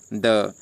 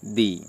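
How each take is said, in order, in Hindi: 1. स्वर एक छोटी, हल्की 'uh' ध्वनि है। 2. स्वर एक लंबी 'ee' ध्वनि है। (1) "टी एच ई के बाद कॉन्सोनेंट साउंड आ रहा है तो उसका उच्चारण क्या करोगे?" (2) "टी एच ई के बाद वॉवल साउंड आ रहा है तो उसका उच्चारण क्या करोगे?"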